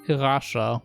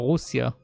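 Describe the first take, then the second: First: It is said like 'Rasha', with an sh sound. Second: It is said like 'Rusya', with an s-y sound. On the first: This is how it is said in English. "over here we don't say Russia" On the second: This is how it is said in Hebrew. "That's how we call it in Hebrew"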